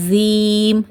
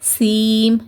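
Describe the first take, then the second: First: The first consonant sounds like a z. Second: The first consonant sounds like an s. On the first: "இசட் sound கொடுத்து" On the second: "எஸ் sound கொடுத்து"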